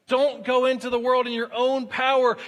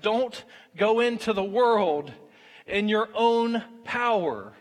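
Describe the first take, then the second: First: Said in the usual way. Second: Slow, weighty stress on "own" and "power"; slow emphatic warning. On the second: Shown as a demonstration. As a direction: lean hard on "own power", drawn out. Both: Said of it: "repeated for emphasis".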